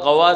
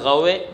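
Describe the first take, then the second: First: The final vowel is a plain open a. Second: The final vowel leans strongly toward e. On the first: This is the form without imala. "गवा से गवे" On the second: This is the form with imala kubra. "ये इमाला कुबरा हो गया"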